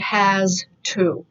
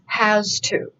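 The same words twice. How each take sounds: First: The two words are said separately and carefully. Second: The two words run together like one word. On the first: The speaker calls it wrong. "You would not say has to" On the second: The speaker calls it right. "It's has to"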